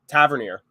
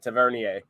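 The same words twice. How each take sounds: First: The name is said with English pronunciation. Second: The name is said with French pronunciation.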